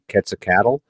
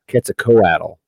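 First: The ending sounds like the word cattle. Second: The ending has an O sound, like co-atl. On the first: "instead of saying cattle, because you could say Quetzalcoatl" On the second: "but you could just put an O in there"

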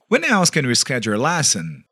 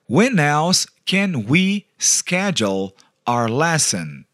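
First: It is said at normal speed. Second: It is said much more slowly.

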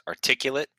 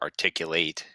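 First: The last syllable is weak, like 'lit'. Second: The last syllable is full, like 'late'. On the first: It describes someone who speaks clearly. "It could be used as an adjective" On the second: It is the act of expressing something clearly. "or verb"

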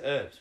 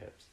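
First: An American-style herbs with a silent h. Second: An English-style herbs with the h pronounced.

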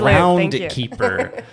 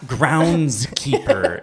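First: No S sound comes before keeper. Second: An S sound comes before keeper. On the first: The speaker calls it right. "It's groundkeeper" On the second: The speaker calls it wrong. "it's not groundskeeper"

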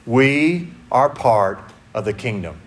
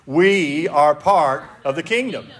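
First: It is said quietly and timidly. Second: It is said loudly and boldly.

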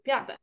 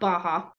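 First: The name has a th sound in the middle. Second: The name has an h sound in the middle. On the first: The speaker calls it wrong. "silly American mispronouncing Gaelic words" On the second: The speaker calls it right. "It's pronounced Baha"

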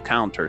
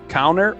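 First: It is said in a British accent. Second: It is said in an American accent.

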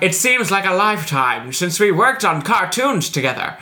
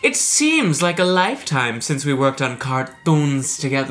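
First: It is read in a 1930s-style voice. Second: It is read in a normal voice.

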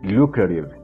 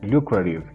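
First: The t is pronounced as a soft flap. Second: The t is pronounced as a soft flap.

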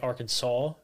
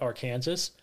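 First: The word ends with a 'saw' sound. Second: The word ends like 'Kansas'. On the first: "I refuse to say Arkansas" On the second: "I call it Arkansas. There's no fucking W in that word"

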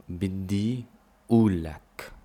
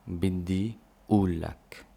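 No difference in how they are said.

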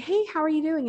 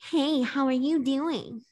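First: It is said in a plain, normal voice. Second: It is said in an imitating, mocking voice.

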